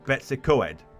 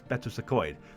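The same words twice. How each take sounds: First: The name is pronounced in an anglicized way. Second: The name is pronounced in a Welsh way. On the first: This is how outsiders say the name. The speaker calls it wrong. "people in England call it Betws-y-Coed" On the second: This is how locals say the name. The speaker calls it right. "it's not, it's Betws-y-Coed"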